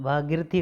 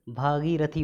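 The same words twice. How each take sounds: First: भागीरथी squeezed to "bhaagirthi"; wrong short i. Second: भागीरथी in full, "bhaa-gee-ra-thee"; long ee. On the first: Teacher showing the error, compressed भागीरथी. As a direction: drop the vowel after r in भागीरथी. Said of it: "गलत है". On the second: Teacher correcting students, long-gee भागीरथी. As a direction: sound every syllable of भागीरथी. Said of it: "होता है". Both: Shown as a demonstration.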